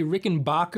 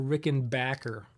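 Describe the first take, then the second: First: Rickenbacker with a broad "ah" in the third syllable; Rickenbacker as "Rickenbocker". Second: Rickenbacker with a flat short "a" as in "back". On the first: Guitarist asking viewers about pronunciation, Rickenbacker said "Rickenbocker". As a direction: say Rickenbacker so BACK sounds like "bock". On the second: Guitarist offering the other pronunciation, Rickenbacker with "back" as in backpack. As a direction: say Rickenbacker ending just like the word "backer". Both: Shown as a demonstration. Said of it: "here's another pronunciation thing".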